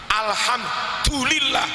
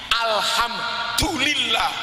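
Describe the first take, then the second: The two takes are said the same way.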